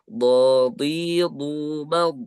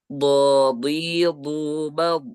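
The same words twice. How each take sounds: The two takes are said the same way.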